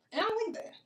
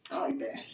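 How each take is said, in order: First: Lifted pitch, dropped volume; half-sung soft disapproval; high soft aside. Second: Breathy whisper, no voice; a hushed repeat; whispered echo. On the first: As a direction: say it high and hushed. Repeats line, second take whispered. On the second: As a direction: whisper it to yourself. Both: Real, not acted.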